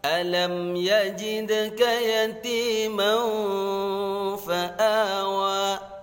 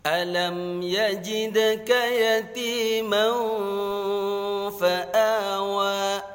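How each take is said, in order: Both takes have the same delivery.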